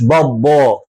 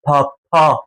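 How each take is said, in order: First: "بابا" as babo, two voiced Bs, drawn out; lower, slow "بابا" with heavy B sounds; baba with B. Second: "بابا" as papa, both consonants puffed P. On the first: Teacher showing what it is not, heavy-B baba. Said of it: "مش بابا". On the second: Teacher giving the right French word, puffed papa. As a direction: pop two airy Ps in "بابا". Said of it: "اما دي اسمها". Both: Shown as a demonstration.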